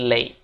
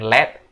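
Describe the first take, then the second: First: The vowel is a long a sound. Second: The vowel is a short e sound. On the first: The speaker calls it right. "Jadi A gitu guys" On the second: The speaker calls it wrong. "Bukan let"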